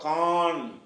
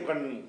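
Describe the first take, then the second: First: The vowel is drawn out long. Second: The vowel is kept short. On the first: The speaker calls it wrong. "காண்டு படிக்கலாமா" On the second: The speaker calls it right. "இதை கண்ணுன்னு தான் படிக்கணும்"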